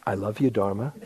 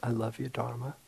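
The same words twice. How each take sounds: First: Laughing through it, a bit embarrassed; half-laughing, feeling silly saying it; sheepish laugh. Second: Soft, quiet and sincere, meaning every word; heartfelt. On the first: Urged by his teacher to say it, sheepish laughing reply. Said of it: "I felt like a complete jerk". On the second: Finally feeling it with his teacher, soft sincere declaration. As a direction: say it gently, as if it finally lands. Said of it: "I felt it". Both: Retold or imitated.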